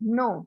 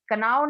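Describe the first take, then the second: First: The word begins without a k sound. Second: The word begins with a k sound. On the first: The speaker calls it right. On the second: The speaker calls it wrong.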